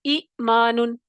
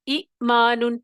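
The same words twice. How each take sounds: First: ایمانن with a long opening ای, ee-maanan; recitation demo. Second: ایمانن repeated, the opening ای held long; recitation demo. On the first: Teacher gives the second example ایمانن, with a long first vowel. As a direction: model ایمانن, stretching the first ای. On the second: Teacher repeats ایمانن for students, with a long first vowel. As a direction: say ایمانن again, drawing out ای. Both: Shown as a demonstration. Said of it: "دوسری مثال ہے".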